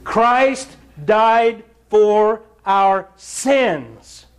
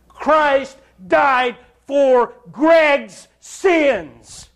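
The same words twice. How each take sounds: First: Each word drawn out slowly; very slow preaching. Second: Very slow, higher, stress on Greg's; personal confession. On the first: Preacher pressing the gospel on his hearers, very slow and weighty. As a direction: lean on CHRIST and stretch it out slowly. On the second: Preacher confessing his own sin to the church, slow and raised. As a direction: draw out Greg's sins, slow and high. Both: Acted.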